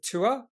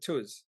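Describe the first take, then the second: First: The final S sound is left silent. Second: The final S sound is pronounced. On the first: "Is it S silent" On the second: "or is it Tuas?"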